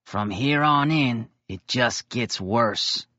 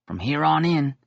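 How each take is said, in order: First: From here on in drawn out, pause, then slow it just gets worse. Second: Said in the usual way. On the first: A narrator's reading. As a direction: stretch it out, then deliver the punchline slowly. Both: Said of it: "he pauses".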